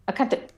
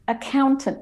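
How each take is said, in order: First: The stressed 'ow' vowel is clipped short. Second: The stressed 'ow' vowel is held slightly longer. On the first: The speaker calls it wrong. "I'm not saying accountant" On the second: The speaker calls it right. "you can still hear the cown, the owl is held longer"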